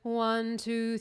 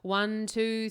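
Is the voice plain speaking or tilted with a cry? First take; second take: cry; plain. First: The count is said with a crying, stretched sound. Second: The count is spoken plainly with thick vocal folds. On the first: "you're going to cry on that sound" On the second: "these are my vocal folds. They're nice and thick"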